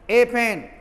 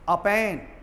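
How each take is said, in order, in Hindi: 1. Article एक पूरी, ज़ोर वाली 'ay' ध्वनि है। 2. आर्टिकल एक छोटी, हल्की, कमज़ोर स्वर-ध्वनि है। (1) "जोर देकर बोलेंगे" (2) "वीक साउंड में बोलेंगे"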